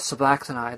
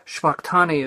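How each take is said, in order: First: It is said with English-style sounds, all syllables full. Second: It is said Hebrew-style, with the first vowel dropped. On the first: "us English speakers ... we put our own spin, our own accent" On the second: "Shvaktani is the way he pronounced it"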